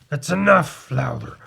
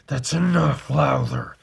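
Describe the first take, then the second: First: It is said in his normal voice. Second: It is said in a put-on Batman voice.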